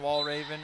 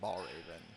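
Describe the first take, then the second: First: The name begins with a W sound. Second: The name begins with a B sound. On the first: The speaker calls it right. "I think I started saying wall Raven" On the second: The speaker calls it wrong. "then I accidentally just started saying ball Raven"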